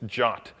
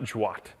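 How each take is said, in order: First: It is said as the single word jot. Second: It is spelled out as separate letters. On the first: The speaker calls it right. "you pronounce this J O T" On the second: The speaker calls it wrong. "not J W A T"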